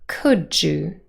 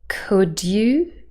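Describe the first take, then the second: First: The d and y sounds blend together. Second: The d and y sounds stay separate. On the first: "yod coalescence" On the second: "received pronunciation"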